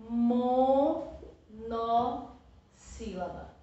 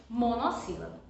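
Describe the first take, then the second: First: "monossílaba" slowly split as mo, no, sílaba; syllable by syllable. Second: Said in the usual way. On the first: Shown as a demonstration. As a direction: pause after "mo" and "no" in "monossílaba". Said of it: "colocar na cabeça". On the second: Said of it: "Quando tem uma sílaba".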